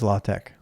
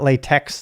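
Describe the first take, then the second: First: The word ends with a 'tech' sound. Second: The word ends with a 'tex' sound. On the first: The speaker calls it right. "So it is La Tech" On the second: The speaker calls it wrong. "It's not latex, though, even though that's how it's spelled"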